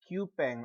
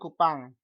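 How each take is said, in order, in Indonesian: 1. Vokal kedua terdengar seperti 'eh'. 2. Vokal kedua terdengar seperti 'ah'. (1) "never say in English Kupeng" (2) "Tapi Ambon dan Kupang"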